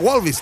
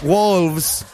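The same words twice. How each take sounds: First: The word is read with Spanish-style sounds. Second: The word is said with English sounds. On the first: The speaker calls it wrong. "Yo decía Wolves" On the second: The speaker calls it right. "No, es Wolves"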